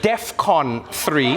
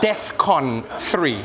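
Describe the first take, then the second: First: The first syllable sounds like 'def'. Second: The first syllable sounds like 'death'. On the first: The speaker calls it right. "But it's DEFCON three" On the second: The speaker calls it wrong. "not DEFCON three"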